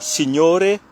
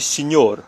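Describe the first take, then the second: First: The word ends with a final vowel sound. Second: The word ends with a final consonant sound. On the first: The speaker calls it wrong. "on ne dit pas signore" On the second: The speaker calls it right. "mais on dit signor"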